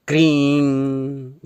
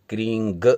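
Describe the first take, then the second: First: The word ends on a plain nasalized vowel. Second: The word ends with a g after the nasal. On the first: The speaker calls it right. "केवल इस बिंदी का ही उच्चारण करें" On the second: The speaker calls it wrong. "क्रींग कई लोग उच्चारण करते हैं"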